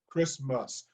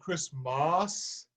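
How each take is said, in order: First: The second vowel is a relaxed schwa. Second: The second vowel is altered to sound prettier. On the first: The speaker calls it right. "most of us say Christmas. So the, the schwa is appropriate" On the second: The speaker calls it wrong. "I don't want to make it Christmas"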